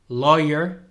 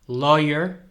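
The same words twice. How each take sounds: Both takes have the same delivery.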